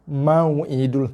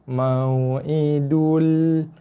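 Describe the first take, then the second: First: The w glide is abrupt, with no softness. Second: The w glide is soft and smooth. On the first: The speaker calls it wrong. "Tak adalah sifat lunak tu" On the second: The speaker calls it right. "wajib dibaca dengan sifat lin. Sifat lunak"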